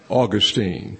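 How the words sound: The name is said in a Southern accent. "I can pronounce it only in the East Texas way"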